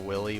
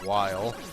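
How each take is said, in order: First: The first syllable rhymes with 'mill'. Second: The first syllable rhymes with 'mile'. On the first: The speaker calls it wrong. "which was incorrect" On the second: The speaker calls it right. "said like Wile E. Coyote"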